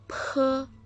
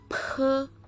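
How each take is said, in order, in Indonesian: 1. Konsonan ini dilepas dengan hembusan udara. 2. Konsonan ini dilepas dengan hembusan udara.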